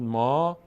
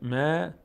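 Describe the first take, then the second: First: The syllable is pronounced heavy, with a full vowel. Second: The syllable is pronounced thin, with a light vowel. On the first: The speaker calls it wrong. "پر خواندن میشد ما" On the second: The speaker calls it right. "باریک خوانده میشه"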